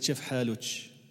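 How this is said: It is said in a dialect with ch sounds.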